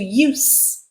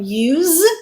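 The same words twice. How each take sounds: First: The word ends with an unvoiced s sound. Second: The word ends with a voiced z sound. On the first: It is a noun. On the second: It is a verb.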